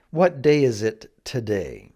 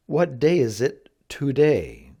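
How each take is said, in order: First: "today" said "tuh-day" inside the question; reduced "today". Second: "today" said "too-day" inside the question; full "to" pronounced. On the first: Teacher puts the common variant in a question, reduced "tuh-day". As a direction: ask it with "today" starting on a weak "tuh". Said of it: "almost like it should be T A". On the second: Teacher puts the careful variant in a question, "today" as "too-day". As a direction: ask it with a clear "oo" in the first syllable of "today". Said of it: "do their best to pronounce the two". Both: Shown as a demonstration.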